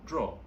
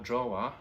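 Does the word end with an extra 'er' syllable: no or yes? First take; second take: no; yes. First: It sounds just like the verb draw. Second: It ends with an extra 'er' syllable. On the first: The speaker calls it right. "it's pronounced the same way as the verb when you draw something" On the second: The speaker calls it wrong. "so it's not called drawer"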